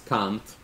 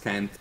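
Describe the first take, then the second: First: It is said in a British accent. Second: It is said in an American accent. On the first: "In the U K, it's can't" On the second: "U S is can't"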